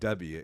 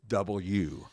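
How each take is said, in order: First: The letter name is said in a shortened form. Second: The letter name is said fully as double U. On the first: The speaker calls it wrong. "it's not W" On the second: The speaker calls it right. "you have to say double U"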